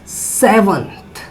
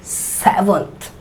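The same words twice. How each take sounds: The two takes are said the same way.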